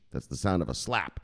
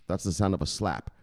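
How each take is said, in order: Both takes have the same delivery.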